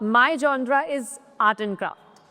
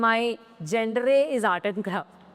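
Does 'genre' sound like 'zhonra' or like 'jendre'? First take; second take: zhonra; jendre. First: Genre is said like 'zhonra'. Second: Genre is said like 'jendre'. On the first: The speaker calls it right. "इसको जॉनरा पढ़ा जाता है" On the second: The speaker calls it wrong. "ना कि"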